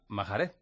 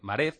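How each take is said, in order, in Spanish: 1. Se dice con un sonido h aspirado en medio. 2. Se dice sin sonido h en medio.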